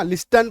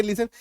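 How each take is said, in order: First: "लिस्टन" with T sounded after S; spelling pronunciation. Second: "लिसन" with S straight into the N syllable, no T; silent T. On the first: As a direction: read "लिस्टन" letter by letter, keeping the T. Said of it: "कायदे से इसको लिस्टन पढ़ दें". ("लिस्टन" में ट बोलकर) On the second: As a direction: say "लिसन", dropping the T. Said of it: "यहाँ पे टी साइलेंट हो गया है". ("लिसन" में ट silent) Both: Shown as a demonstration.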